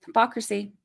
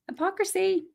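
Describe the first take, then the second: First: Said in the usual way. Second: Much higher, soft and sing-song; sarcastic lilt on Hypocrisy; mock disbelief.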